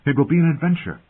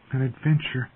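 First: High, lifted, eager delivery; excited promise. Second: High, softened echo; wistful. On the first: Acted. Robb to Bran about riding north, excited. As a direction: build him up with bright anticipation. Brother cheering Bran with plans. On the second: A narrator's reading. Bran echoing his brother's promise, wistful. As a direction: repeat it longingly, pitched up. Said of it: "Bran repeated wistfully".

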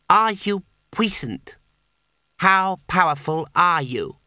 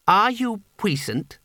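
First: High, slow, pressing repeat of "are you puissant"; insistent repeat. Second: Put-on high, slow, solemn boy's question; boy's challenge. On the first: Acted. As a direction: lean on the question again, firmer. Boy repeats his demand. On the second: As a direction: ask "puissant" gravely, like a test. Boy demands wizard's power.

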